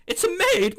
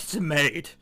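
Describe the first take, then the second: First: High, startled cry of recognition; surprised exclamation. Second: Said in the usual way. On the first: Real, not acted. Gamer spotting a maid on screen, high startled exclamation. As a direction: blurt it out, caught off guard.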